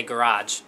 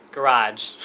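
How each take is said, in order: First: Said in the usual way. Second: Garage drawn out very slowly in her own accent; showing off her accent. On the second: Shown as a demonstration. For fans who love her accent, garage said slowly on purpose. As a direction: say garage slowly so every sound shows. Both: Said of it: "you guys love it when I say garage".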